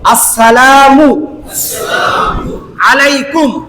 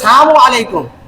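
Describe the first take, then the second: First: The greeting starts with the full word assalamu. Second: The greeting starts with the short word sam. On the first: The speaker calls it right. "শুদ্ধ একটা সালাম আপনাদেরকে একটু শিখায় দেয়" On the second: The speaker calls it wrong. "সাম মানে মৃত্যু"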